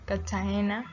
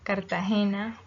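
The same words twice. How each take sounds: First: The r is dropped and the t doubled. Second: The r before the t is pronounced.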